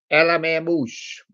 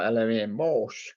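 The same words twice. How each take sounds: First: "Moose" said like the animal, rhyming with goose; first take with the name misread as "Moose". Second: "Morse" said with the "or" vowel, like Morse code; corrected take with "Morse" said like the code; corrected name. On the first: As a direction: read it as L M A "Moose" with a long oo. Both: Real, not acted. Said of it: "or L M A Morse".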